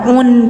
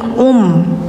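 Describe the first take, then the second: First: The syllable ends with an n sound. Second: The syllable ends with an m sound. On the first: The speaker calls it wrong. "jangan un" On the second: The speaker calls it right. "tapi um"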